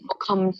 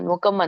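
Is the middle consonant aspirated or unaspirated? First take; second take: aspirated; unaspirated. First: The middle k sound is aspirated. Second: The middle k sound is unaspirated. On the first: The speaker calls it right. "ಅಲ್ಲಿ ದೊಡ್ಡ ಖ ಇದೆ" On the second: The speaker calls it wrong. "ನೀವು ಸಣ್ಣ ಕ ಹೇಳಿದ್ರಿ. ಮುಖಂ ಮುಖಂ ಅಂತ ಹೇಳಿದ್ರಿ"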